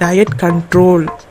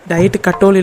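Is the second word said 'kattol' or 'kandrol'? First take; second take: kandrol; kattol. First: The second word is said as 'kandrol'. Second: The second word is said as 'kattol'. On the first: The speaker calls it right. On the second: The speaker calls it wrong. "Diet கட்டோல் இல்லைம்மா"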